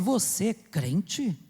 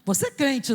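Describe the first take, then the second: First: It is asked in a doubtful, suspicious tone. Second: It is asked in a friendly, approving tone. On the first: The asker doubts that you live like a believer. The speaker calls it wrong. "o pior é quando a pessoa fala assim" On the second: The asker sees something good in you. The speaker calls it right. "quando a pessoa faz a pergunta desta entonação, ainda está bom"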